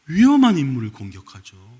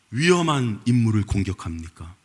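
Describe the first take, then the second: First: 위험한 punched louder; 위험한 stressed, confident, louder; emphatic answer. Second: Said in the usual way. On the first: Shown as a demonstration. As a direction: hit 위험한 hard. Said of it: "answer with emphasis". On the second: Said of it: "rhetorical question then answer".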